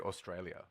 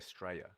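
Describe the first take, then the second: First: The word is said with all its syllables. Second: The word is clipped to two syllables. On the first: "we don't even say Australia" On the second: "We just say Straya"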